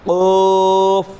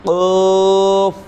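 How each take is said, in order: The two takes are said the same way.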